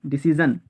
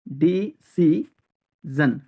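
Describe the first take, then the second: First: Said in the usual way. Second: decision slowly as di-si-zon; long pauses between syllables of decision. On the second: Shown as a demonstration. Teacher drilling learners, decision in slow separate syllables.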